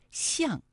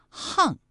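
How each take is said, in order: First: 巷 read as xiàng, falling tone. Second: 巷 read as hàng, falling tone. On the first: Host gives first reading of polyphonic character, 巷 as xiàng. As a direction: say 巷 with an x sound, xiàng. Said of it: "它有两个读音". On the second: Host gives the other reading of the character, 巷 as hàng. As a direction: say 巷 with an h sound, hàng. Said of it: "还有一个读音啊是". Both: Shown as a demonstration.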